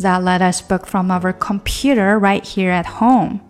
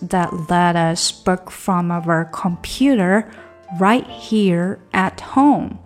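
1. 这句话是用较快的语速说的。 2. 这句话是用正常语速说的。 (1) "加快一点" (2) "我们整句来"

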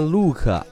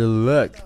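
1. 这个元音是长的 u 音。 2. 这个元音是短的 u 音。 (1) "那不是念look" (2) "而是look，不是长u 短u"

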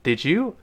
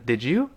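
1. d和y合并成一个j音。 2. d和y合并成一个j音。

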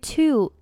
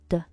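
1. 这个词有一个完整、清晰的元音。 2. 这个词有一个弱化、含混的元音。

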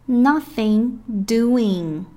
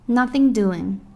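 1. 每个音都完整、清晰地说出。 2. 音被缩短并连读在一起。

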